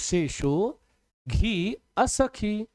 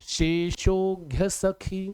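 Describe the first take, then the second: First: It is said in separate pieces with breaks. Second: It is said smoothly joined without breaks. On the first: "जब इकट्ठा ना पढ़ पाओ तो तोड़ तोड़ के पढ़ा करो" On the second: "अब इसी को कहते शेषोघ्य सखी"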